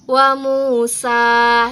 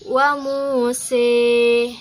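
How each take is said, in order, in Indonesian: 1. Vokal terakhir adalah bunyi 'a' yang terbuka. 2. Vokal terakhir condong ke bunyi 'e'.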